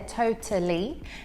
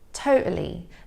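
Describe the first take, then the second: First: The middle T is a clear, released T. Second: The middle T is a glottal stop. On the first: "here I'm pronouncing it with a true T, so you can hear that T there" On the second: "with a glottal T, so that's where the flow of air is stopped and then released"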